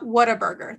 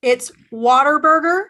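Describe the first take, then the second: First: Whataburger as written, "what-a-burger"; official-name pronunciation. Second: WHATABURGER said as "water-burger"; local pronunciation. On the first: Texan showing the legal entity name, as-written pronunciation. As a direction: say Whataburger with a clear "what-uh" start. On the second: Texan correcting viewers on the name, local pronunciation. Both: Shown as a demonstration. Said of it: "That's just their legal entity name".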